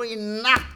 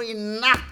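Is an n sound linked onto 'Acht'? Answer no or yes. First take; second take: yes; yes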